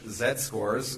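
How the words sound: The letter Z is said the British way. "in correct English"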